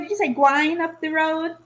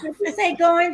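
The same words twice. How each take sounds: First: "gwine" said as gw plus "ine", rhyming with wine; patois "gwine" in place of going; Jamaican "gwine". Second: Said in the usual way. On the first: Shown as a demonstration. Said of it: "Who says gwine?". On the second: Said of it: "I was grammar checking you".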